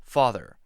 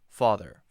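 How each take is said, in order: No difference in how they are said.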